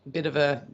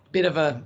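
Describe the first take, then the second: No difference in how they are said.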